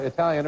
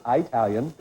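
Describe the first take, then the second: First: Said in the usual way. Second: Italian said as eye-TAL-yun; Italian mispronounced Mom's way, starting like "eye"; mom's pronunciation. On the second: Retold or imitated. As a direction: open Italian with a long eye sound. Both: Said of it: "or as my mom says".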